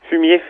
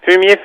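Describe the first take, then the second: First: It is said at normal volume. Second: It is said loudly.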